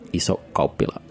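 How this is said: It is said with a Finnish accent.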